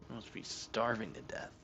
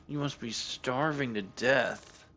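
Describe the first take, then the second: First: "You must be starving to death" murmured much softer, mock sad; soft mock pity. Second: "You must be starving to death" drawn out slowly, sarcastic sympathy; slow mock pity. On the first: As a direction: coo it quietly at the cat. Repeat to cat, much softer. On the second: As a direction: tease the cat with fake concern. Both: Real, not acted.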